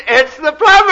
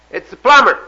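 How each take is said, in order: First: Very high, loud squawked announcement; parrot punchline. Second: Lightly voiced plumber, raised and louder. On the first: Acted. Parrot answering from inside the house, loud screech. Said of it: "out of the house comes a voice". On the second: Plumber calling to whoever is inside, lightly raised call. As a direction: announce yourself through a door as the plumber. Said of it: "The voice came back and says".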